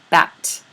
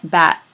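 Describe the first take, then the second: First: The final T is clearly released. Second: The final T is held without release. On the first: "really release that word final T" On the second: "now say it without releasing it"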